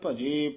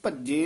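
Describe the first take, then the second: First: The word is said with a soft, gentle sound. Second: The word is said with a hard, forceful sound. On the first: The speaker calls it right. "ਭਜੇ ਪੋਲਾ ਹੀ ਬੋਲਣਾ" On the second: The speaker calls it wrong. "ਭਜੇ ਨਹੀਂ ਕਹਿ ਦੇਣਾ"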